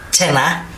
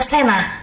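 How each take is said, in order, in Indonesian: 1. Kata cenah diawali dengan bunyi ch. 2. Kata cenah diawali dengan bunyi s.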